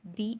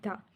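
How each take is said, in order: First: The word ends in a long 'ee' vowel. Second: The word ends in a short 'uh' vowel. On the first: It comes before a vowel sound. "दी पढ़ते हैं जब हम वॉल, कोई भी letter वॉल letter से या वॉल sound से पहले आए" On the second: It comes before a consonant sound. "Consonant sound से पहले आए तो हम दा पढ़ते हैं"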